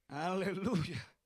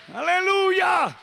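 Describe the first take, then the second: First: Slow, quiet aleluya; soft hallelujah. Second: Slow, high, loud aleluya; shouted hallelujah. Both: Acted.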